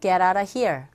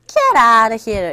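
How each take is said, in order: First: The phrase is said flat, without marked intonation. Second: The first word 'get' carries strong stress. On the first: The speaker is going to leave. "그냥 읽었단 말이죠. 인토네이션이 없단 말이에요" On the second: The speaker thinks the other person is joking. "첫 번째 이렇게 강세를 줘서"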